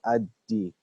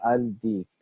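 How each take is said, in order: First: The L merges into a doubled D sound. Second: The article is said with a clear L sound. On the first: The speaker calls it right. "I said ad-deek" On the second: The speaker calls it wrong. "I didn't say al-deek"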